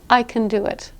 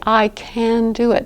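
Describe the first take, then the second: First: 'Can' is unstressed and reduced to 'kin'. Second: 'Can' is said in full, with stress.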